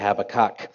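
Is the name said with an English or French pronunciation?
English. The name is said with English pronunciation. "I usually say"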